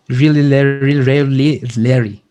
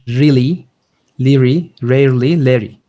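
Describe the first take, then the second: First: It is said much faster. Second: It is said at a normal pace.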